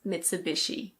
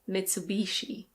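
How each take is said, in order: First: It is said with a British pronunciation. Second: It is said with an American pronunciation. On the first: "In British English, this is Mitsubishi" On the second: "In American English, it's usually Mitsubishi"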